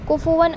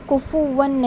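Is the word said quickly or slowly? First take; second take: quickly; slowly. First: The word is said quickly. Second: The word is said slowly. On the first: The speaker calls it right. "आप जल्दी पढ़ोगे" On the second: The speaker calls it wrong. "नहीं पढ़ना है"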